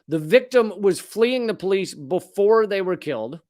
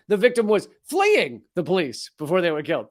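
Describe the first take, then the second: First: The word 'before' carries strong stress. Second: The word 'before' carries no special stress. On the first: The speaker calls it wrong. "I don't know why I stressed the word before" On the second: The speaker calls it right. "There we go"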